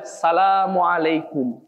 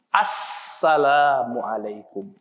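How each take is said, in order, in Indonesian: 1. Langsung dimulai dengan 'sa', tanpa 'as'. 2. Dimulai dengan bunyi 'as' sebelum 'salam'. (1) "bukan salamualaikum" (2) "Harus ada alif lam"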